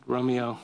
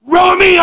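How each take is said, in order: First: Much softer, low apologetic name; sorry to the dog. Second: Much higher, loud shouted name; furious owner shouting the dog's name; yelling at the dog. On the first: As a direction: say his name gently, making amends. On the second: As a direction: bellow the dog's name across the house. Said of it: "Full on". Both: Retold or imitated.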